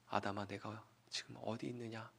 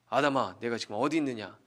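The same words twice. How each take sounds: First: It is said in a soft, warm voice. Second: It is said in a frightening, thunderous voice.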